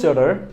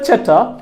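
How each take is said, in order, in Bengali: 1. এটি আমেরিকান উচ্চারণে বলা হয়েছে। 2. এটি ব্রিটিশ উচ্চারণে বলা হয়েছে। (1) "আমেরিকানরা বলে চ্যাটার" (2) "ব্রিটিশরা বলে চ্যাটার"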